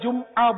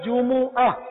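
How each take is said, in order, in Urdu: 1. م کے بعد کوئی حرکت نہیں ہے۔ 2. م کے بعد پیش کی آواز ہے۔ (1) "اردو میں میم ساکن ہو جاتا ہے جمعہ بولتے ہیں" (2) "صحیح تلفظ وہ ہے جمعہ. جیم پر بھی پیش ہے اور میم پر بھی پیش ہے"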